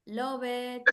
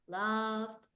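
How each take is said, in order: First: The ending is an extra syllable like 'it'. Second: The ending is a plain consonant, no extra syllable. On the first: The speaker calls it wrong. "So it's not love it" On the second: The speaker calls it right. "It's loved"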